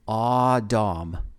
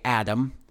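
First: The first vowel sounds like the one in 'awe'. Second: The first vowel sounds like the one in 'add'. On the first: This is the Hebrew pronunciation. "the Hebrew pronunciation was Aw, as in A-W, and Dom" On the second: This is the English pronunciation. "we in English, at least in America, say Adam"

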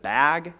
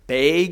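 First: The vowel sounds like the one in ag. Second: The vowel sounds like the one in egg. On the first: "instead of" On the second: "we like to say that as egg rather than ag"

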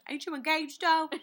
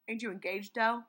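First: It is said in a British accent. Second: It is said in the speaker's usual accent.

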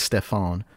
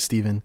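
First: The middle consonant is an F sound. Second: The middle consonant is a V sound. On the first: The speaker calls it wrong. "so you'd think it's Stefan" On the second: The speaker calls it right. "it is Steven, like it was spelled with a V"

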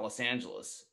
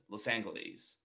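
First: The g is said like a j sound. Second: The g is said as a hard g. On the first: This is how the name is said today. "giving the G a J sound" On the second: This is how the name was said in the mid twentieth century. "they give it a G sound"

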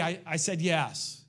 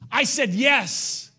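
First: It is said in a casual, offhand way. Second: It is said in a firm, forceful way. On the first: It is a passing remark with no commitment. The speaker calls it wrong. "It's not, hey" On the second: It is a committed declaration with force. The speaker calls it right. "It's making a declaration"

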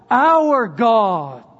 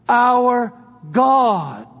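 First: The word our carries the emphasis. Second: The word God carries the emphasis. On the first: The focus is on God belonging to us. "shift it to that first person possessive plural pronoun" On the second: The focus is on who God is. "Go from God"

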